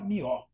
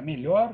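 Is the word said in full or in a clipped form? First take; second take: clipped; full. First: The word is clipped, with the lh and final r dropped. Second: The word is said in its full standard form. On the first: "Eles podem falar errado" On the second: "Para melhor"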